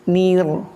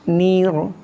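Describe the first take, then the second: Both takes have the same delivery.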